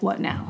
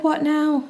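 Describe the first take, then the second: First: Weary fish. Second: High-pitched, wary question; exasperated husband. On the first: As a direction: lightly play a fish tired of requests. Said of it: "and the fish is like". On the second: Husband asking his restless wife, high acted exasperation. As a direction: lightly play a husband bracing for another demand. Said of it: "And he's like". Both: Acted.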